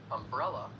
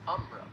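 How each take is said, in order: First: The stress is on the second syllable. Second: The stress is on the first syllable, Southern style.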